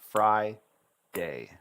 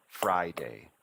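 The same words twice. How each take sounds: First: "fry, day" as two detached beats; separated syllables. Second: Said in the usual way. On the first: Shown as a demonstration. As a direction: stop fully between fry and day. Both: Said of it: "you have to hear the syllable sounds separately".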